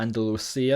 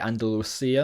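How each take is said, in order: First: The c is said as an s sound. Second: The same.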